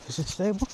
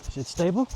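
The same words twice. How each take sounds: First: Asked softer while running; breathless question, softer; breathless and quieter. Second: Talking while running; jogging while speaking. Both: Real, not acted. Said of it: "I'm running right now".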